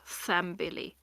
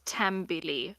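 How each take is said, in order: First: The word begins with a th sound. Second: The word begins with a plain t sound. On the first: The speaker calls it wrong. "and not Thambili" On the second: The speaker calls it right. "I would pronounce this as Tambili"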